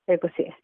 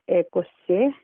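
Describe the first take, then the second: First: The word is said quickly and fluently. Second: The word is said slowly and carefully. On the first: "the fluent pronunciation" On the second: "the slow pronunciation"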